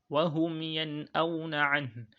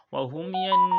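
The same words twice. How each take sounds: First: Slow recited "Wa hum yen auna an", the n of "yen" not leaned on; nun without emphasis. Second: "Wa hum yen" higher and louder, leaning hard on the final n; wrong emphasised nun. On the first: Teacher modelling for students, unemphasised n in "yen auna". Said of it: "Instead of saying". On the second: Teacher showing what to avoid, heavy held n in "yen". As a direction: hang on the n at the end of "yen". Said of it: "you do not say that". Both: Shown as a demonstration.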